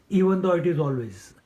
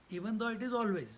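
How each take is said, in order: First: "even though it is always" called out loud, falling; loud emphasis. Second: Said in the usual way. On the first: Shown as a demonstration. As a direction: proclaim it to the whole hall.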